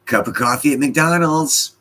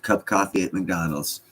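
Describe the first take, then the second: First: High, loud comic announcement; mock exclaim. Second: Said in the usual way. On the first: Real, not acted. Streamer reading a viewer's joke aloud, comically high and loud. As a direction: blurt it out like a punchline.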